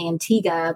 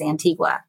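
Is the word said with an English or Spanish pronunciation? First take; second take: English; Spanish. First: The word is said with an English pronunciation. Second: The word is said with a Spanish pronunciation. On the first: "they were saying Antigua" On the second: "the Spanish pronunciation is Antigua"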